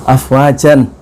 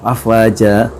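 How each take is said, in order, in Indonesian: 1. Kata ini berakhir dengan bunyi n. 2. Kata ini berakhir dengan vokal a yang ditahan.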